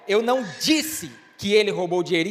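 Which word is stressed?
disse. The stress falls on the word disse. Something else was said. "então o que foi que você disse?"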